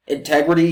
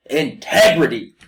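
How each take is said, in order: First: Said in the usual way. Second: Integrity, slow and falling; weighty single word. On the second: Real, not acted. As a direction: let the word land heavily.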